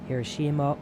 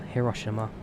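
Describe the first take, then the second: First: The name is said in an English-style way. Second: The name is said in a Japanese-style way. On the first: "The the westernized name" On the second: "or the localized name"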